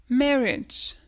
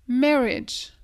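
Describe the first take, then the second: Both takes have the same delivery.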